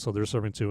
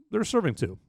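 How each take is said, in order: First: Said in the usual way. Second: SERVING pitched clearly higher; emphatic repeat. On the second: Real, not acted. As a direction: lift "serving" high to drive it home.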